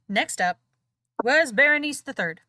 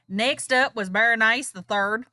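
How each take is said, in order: First: It is said in the speaker's ordinary accent. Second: It is said in a put-on southern accent.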